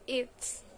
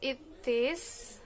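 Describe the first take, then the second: First: The words are merged into one short form. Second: Both words are said in full. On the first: "becomes it's" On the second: "it is becomes"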